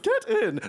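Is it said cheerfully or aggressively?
cheerfully. It is said in a cheerful, happy way.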